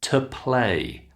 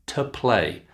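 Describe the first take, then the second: The two takes are said the same way.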